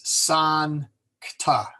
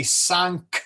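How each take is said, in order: First: SANCTA split after the N, "san, cta", very slowly; Latin syllable split. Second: SANCTA broken after the K, "sanc, ta", drawn out; English-style syllable split. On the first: Teacher correcting English speakers, slow split "san-cta". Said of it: "Well, it's not". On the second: Teacher showing learners the English habit, wrongly split "sancta". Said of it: "We would say". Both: Shown as a demonstration.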